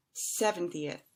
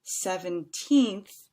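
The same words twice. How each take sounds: First: "seventieth" stressed on SEV, short falling end. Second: Put-on "Seventeenth" with loud, stretched final "teenth"; long stressed TEENTH. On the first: Teacher contrasting two numbers, "seventieth" with short ending. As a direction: keep "ti-eth" light and short in "seventieth". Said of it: "than the second one". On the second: Teacher contrasting two numbers, "Seventeenth" with long teenth. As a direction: punch and lengthen the end of "Seventeenth". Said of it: "a little bit longer". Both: Shown as a demonstration.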